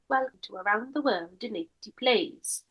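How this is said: It is said in a Welsh accent.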